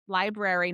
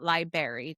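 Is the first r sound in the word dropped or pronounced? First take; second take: pronounced; dropped. First: The first r sound is pronounced. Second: The first r sound is dropped. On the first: The speaker calls it right. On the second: The speaker calls it wrong.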